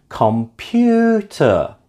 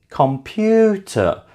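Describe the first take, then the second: First: The stress is on the second syllable. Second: The same.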